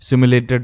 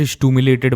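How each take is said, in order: First: The word starts with a 'sim' sound. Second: The word starts with a 'stoo' sound. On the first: The speaker calls it right. "सिमुलेटेड rank बोलते हैं इसे" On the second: The speaker calls it wrong. "कई लोग स्टूमुलेटेड स्टूमुलेटेड बोलते हैं"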